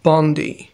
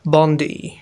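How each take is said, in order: The two takes are said the same way.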